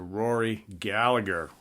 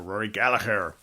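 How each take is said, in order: First: The name is said in a plain, non-Irish accent. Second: The name is said in an Irish accent.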